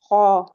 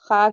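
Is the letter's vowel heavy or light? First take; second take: heavy; light. First: The letter is said heavy with a full vowel. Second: The letter is said light with a thin vowel. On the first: The speaker calls it right. "पूरा जड़ से अपनी टंग को ऊपर उठाएंगे" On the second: The speaker calls it wrong. "खा कहेंगे तो नहीं"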